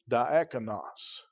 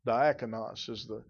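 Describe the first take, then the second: First: Diakonos spoken slowly, each syllable sounded out: dee-AK-oh-nos; careful Greek pronunciation. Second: Said in the usual way. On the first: Shown as a demonstration. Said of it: "I believe I pronounce it right when I say".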